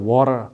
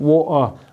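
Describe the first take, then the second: First: The t sound in the middle is pronounced. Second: The t sound in the middle is dropped. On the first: "American कह रहे होते हैं वाटर" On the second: "water के में से टी को निकाल देते हैं"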